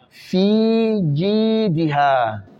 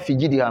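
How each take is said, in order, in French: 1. Les voyelles de fi, ji et ha sont allongées. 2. Les voyelles sont courtes et non allongées. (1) "il faut tirer le fi, il faut tirer le ji et puis le ha" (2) "pas fijidiha"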